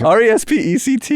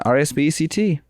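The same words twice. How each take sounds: First: "R E S P E C T" high, every letter sounded; insistent high "R E S P E C T", no letter skipped; RESPECT spelled correctly. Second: "R S B E C T" spelled out missing the first E; letters recited as "R S B E C T"; misspelled RESPECT. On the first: Shown as a demonstration. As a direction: belt out "R E S P E C T" letter by letter. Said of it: "That's not what you said, though". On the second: Real, not acted. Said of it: "I think you spelled it wrong".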